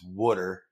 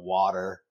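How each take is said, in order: First: It is said with a New Jersey accent. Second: It is said with a standard accent.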